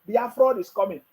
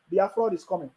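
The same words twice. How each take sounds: First: Mock chant. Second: Softer mocking echo; mocking echo, quieter. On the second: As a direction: repeat the chant more softly. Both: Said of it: "they are shouting on social media".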